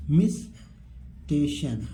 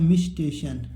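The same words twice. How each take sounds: First: मिस्टेशन very slowly, mis, pause, teshun; slow teaching model of मिस्टेशन; syllable-by-syllable reading. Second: Said in the usual way. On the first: Shown as a demonstration. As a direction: split मिस्टेशन into drawn-out parts. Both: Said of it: "यहाँ पर क्या लिखा है?".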